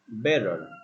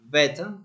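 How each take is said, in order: First: The T is flapped and the final R sounds. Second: The T is clear and the final R drops. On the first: "flap T, rhotic ending" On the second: "is clear T when we say beta, ... it's not rhotic ending"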